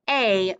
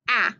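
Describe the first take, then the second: First: The vowel is long, as in acorn. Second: The vowel is short, as in apple. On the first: "long A" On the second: "short A"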